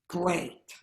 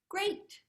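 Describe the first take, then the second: First: It is said with a sarcastic tone. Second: It is said with a warm, lovely tone. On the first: "we could sarcastic tone" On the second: "how would we say it in a beautiful tone?"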